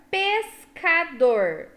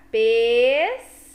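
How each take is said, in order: First: Said in the usual way. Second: "pescador" said slowly and louder, parted into syllables. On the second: Shown as a demonstration. Teacher shows kids how to split "pescador", slowly. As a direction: sound out "pescador" slowly for the class. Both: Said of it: "você fala devagar".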